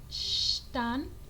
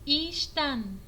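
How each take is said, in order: First: The word starts directly with a 'sh' sound. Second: The word starts with a short 'ee' vowel. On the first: "Algunos pronuncian Shtan" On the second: "o puede pronunciarse Ishtan"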